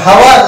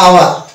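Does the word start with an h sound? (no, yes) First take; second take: yes; no. First: The word starts with an h sound. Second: The word starts with a vowel sound. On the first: The speaker calls it wrong. "এটা হাওয়ার না আওয়ার?" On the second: The speaker calls it right. "আমরা উচ্চারণ করি আওয়ার"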